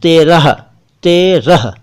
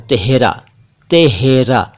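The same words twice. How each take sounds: First: तेरह said te-rah, h at the end, a bit louder; firm तेरह with final h; correct terah. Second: तेहरा said teh-ra, h in the middle; mispronounced तेहरा; wrong tehra. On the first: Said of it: "होना चाहिए". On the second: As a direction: imitate Delhi तेहरा. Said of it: "ये बिल्कुल गलत है". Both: Shown as a demonstration.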